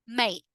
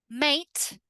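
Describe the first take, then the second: First: "mate" as "may'"; glottal T. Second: "Mate" with a released T; crisp ending on "Mate"; full T. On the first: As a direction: cut the final T in "mate". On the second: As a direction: sound the final T in "Mate". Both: Shown as a demonstration. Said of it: "in the two different ways".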